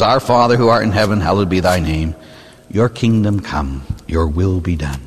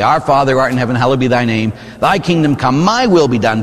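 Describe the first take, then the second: First: Reverent prayer. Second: Mock self-centred Lord's Prayer, as if God should serve you; hammed-up entitled prayer, pushing "my" where "thy" belongs; selfish prayer. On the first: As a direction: pray it humbly as a true surrender. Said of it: "if we prayed what we meant". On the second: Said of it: "if we prayed what we meant, we would say". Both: Shown as a demonstration.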